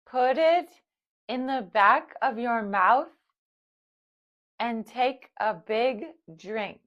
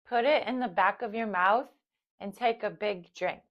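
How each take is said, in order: First: It is spoken slowly. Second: It is spoken at normal speed. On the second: "at normal speed"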